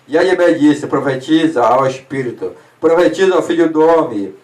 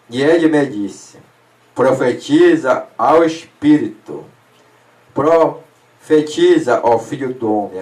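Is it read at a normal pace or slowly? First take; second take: normal; slowly. First: It is read at a normal pace. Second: It is read more slowly.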